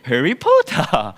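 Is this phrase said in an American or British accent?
British. It is said in a British accent. "But U K, they read it Harry Potter"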